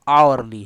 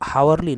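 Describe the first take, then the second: First: The word begins with a vowel sound. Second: The word begins with an h sound. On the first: The speaker calls it right. "ये हावरली नहीं आवरली है" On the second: The speaker calls it wrong. "ये हावरली नहीं आवरली है"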